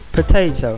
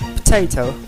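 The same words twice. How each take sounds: First: Every sound in the word is kept. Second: One sound is dropped from the word. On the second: "we are more likely to say"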